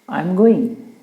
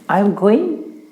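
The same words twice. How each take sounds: First: It is said as a plain statement. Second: It is said as a question.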